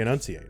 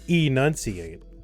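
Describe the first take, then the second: First: The first vowel is a quick, reduced schwa. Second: The first vowel is a full, clear vowel. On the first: "people also say enunciate, right? Just like really quickly, just generic vowel" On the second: "I could say enunciate"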